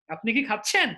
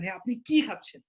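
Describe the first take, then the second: First: খাচ্ছেন rising at the end; খাচ্ছেন-এ জোর, প্রশ্নের সুরে; stress on খাচ্ছেন. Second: কি hit hard and falling; কি-তে জোর দিয়ে; stress on কি. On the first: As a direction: push the verb খাচ্ছেন up. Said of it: "আপনি খাচ্ছেন এর উপরে দিন". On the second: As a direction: punch কি as a what-question. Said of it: "তখন আপনি কির উপরে জোর দেবেন". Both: Shown as a demonstration.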